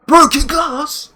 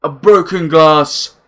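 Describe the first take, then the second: First: Much higher, slow disbelieving question on "Broken glass?"; incredulous. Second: Said in the usual way. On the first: Real, not acted. Reveal then incredulous echo.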